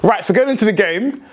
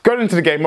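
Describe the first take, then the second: First: Keyed-up, a bit higher and pressing on; getting heated. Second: Said in the usual way. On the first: Real, not acted. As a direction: still buzzing from the win. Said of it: "I'm getting heated". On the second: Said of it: "I need to cool down".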